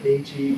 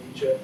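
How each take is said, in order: First: "Nietzsche" said the wrong way, quieter, as the mistake to avoid; wrong pronunciation. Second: "Nietzsche" said carefully the proper German way, NEE-cheh; correct pronunciation. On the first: Lecturer shows students the wrong way to say "Nietzsche". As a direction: mispronounce "Nietzsche" as a throwaway wrong version. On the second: Lecturer corrects students on how to say "Nietzsche". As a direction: give "Nietzsche" its correct German sound, firmly. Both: Shown as a demonstration. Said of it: "not Nietzsche, please, Nietzsche".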